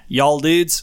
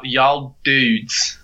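First: Slow American "y'all dudes", rising; American pronunciation model. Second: Very slow, drawn-out "y'all dudes"; attempted American pronunciation. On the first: Teacher giving the phrase to repeat, slow American "y'all dudes". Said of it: "lesson in non-regional Western dialect". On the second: Learner repeating the phrase, laboured American "y'all dudes". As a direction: copy "y'all dudes" syllable by stretched syllable. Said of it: "repeat after me". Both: Shown as a demonstration.

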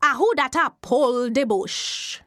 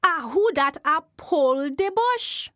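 First: Jumbie voice. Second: The eerie call repeated, a little higher; Jumbie voice again. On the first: Jumbie spirit calling out to the man pulling bush. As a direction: call out from under the earth. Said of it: "he hear a voice say". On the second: Jumbie spirit calling out a second time. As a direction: ask again, rising at the end. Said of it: "The voice say again". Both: Acted.

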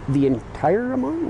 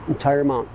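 First: Slow, disbelieving question rising high; surprised. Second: Said in the usual way. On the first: Retold or imitated. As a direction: ask it in shock, drawn out. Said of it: "I'm like". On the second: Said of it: "He's like".

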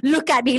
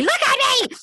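First: Said in the usual way. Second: Much higher, exaggerated demand; mock insistent plea. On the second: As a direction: imitate him pleading, pitched way up. Retold plea, escalated repeat.

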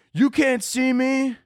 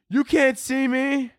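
First: High, slow hammed-up wrestler taunt; John Cena taunt. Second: Mock relative echoing taunt. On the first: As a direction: drag out the catchphrase mockingly. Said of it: "Start playing John Cena". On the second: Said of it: "stop it".

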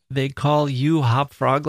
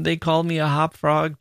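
First: Slow, leaning on "you" in "they call you Hop Frog"; stress on you. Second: Said in the usual way. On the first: Shown as a demonstration. Host contrasting the song lyrics, stressing "you". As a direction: hit "you" to mark the lyric change. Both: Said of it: "they change it from".

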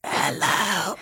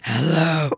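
First: Spooky voice. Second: Said in the usual way. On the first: Pretend. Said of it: "Should we all take a turn". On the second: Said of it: "I can't".

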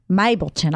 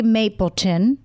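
First: Mapleton in a slightly British accent, first vowel opened toward "my". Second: Said in the usual way. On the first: Real, not acted. Co-host reading out a listener's name, accidental British accent. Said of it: "That's a pretty good British accent". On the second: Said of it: "What is that accent?".

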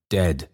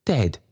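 First: Said in the usual way. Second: Higher, falling gasp of a word; shocked cry. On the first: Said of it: "said the figures altogether". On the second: Acted. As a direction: say it aghast, pitched up. Trotty's shocked cry, figures echo it.

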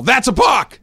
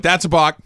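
First: High, loud outburst; yell. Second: Mild, not very loud call-out; restrained yell. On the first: Acted. Baseball person reacting to the pitcher, yelled. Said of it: "your reaction is to yell". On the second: Retold or imitated. Parent calling out for the team, restrained yell. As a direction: blurt it out without really shouting. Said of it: "I didn't yell it very loudly".

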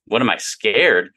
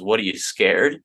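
First: Slow, disbelieving repeat; incredulous echo. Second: Coworker teasing, a light challenge; mock taunt. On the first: Retold or imitated. Young engineer echoing his coworker's jab, slow and incredulous. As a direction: throw the question back, offended. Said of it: "And I'm like". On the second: Coworker needling him about his 401(k), mock taunt. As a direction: needle him like a jokey bully. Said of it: "And he goes".

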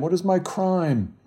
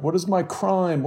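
First: High, pleading repeat; cried out again. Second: High, pleading cry; cried out. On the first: Bloodied man repeating his plea to the crowd, pleading cry. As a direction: ask it again, still pleading. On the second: Bloodied man pushed into the street, pleading cry. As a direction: plead with the crowd for an answer. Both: A narrator's reading. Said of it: "as he cried".

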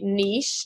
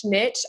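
First: French-style "niche", rhyming with leash; niche as "neesh". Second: "niche" with a short i and tch; "niche" rhyming with pitch; niche as "nitch". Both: Shown as a demonstration. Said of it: "I always get corrected no matter how I say it".

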